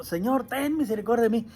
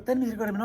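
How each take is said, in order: First: Mild demonstrated cry to be heard; calling out. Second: Said in the usual way. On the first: Shown as a demonstration. Showing how the blind man begged Jesus, mildly calling out. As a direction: make the plea a slightly raised call. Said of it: "Y le gritaba para que lo escuchara". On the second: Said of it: "no le decía así con palabras".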